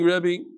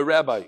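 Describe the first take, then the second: First: "Rebbe" with a short e and ending in ee; Rebbe pronunciation. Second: "Rabbi" with a short a and ending like eye; Rabbi pronunciation. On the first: Reader greets by the mistaken title, "Rebbe" said REB-bee. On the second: Reader corrects the title from the email, "Rabbi" said RAB-eye. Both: Real, not acted. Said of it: "Sorry, not Rebbe".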